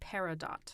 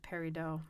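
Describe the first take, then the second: First: The word ends with a clear t sound. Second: The word ends in an oh sound, no t. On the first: It follows the word's Arabic origin. "faridat sounds like peridot" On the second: It follows a French pronunciation. "versus peridot"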